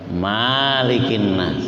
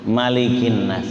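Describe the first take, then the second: First: The first vowel of malikin is drawn out long. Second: The first vowel of malikin is kept short. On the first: The speaker calls it wrong. "nggak boleh" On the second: The speaker calls it right. "nggak boleh dibaca panjang"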